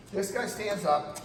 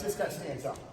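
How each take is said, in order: First: "This guy stands up" slowed with "guy" pressed hard; retold with a slower, louder emphasis on "guy". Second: Said in the usual way. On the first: Shown as a demonstration. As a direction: lean on "guy" and slow the words.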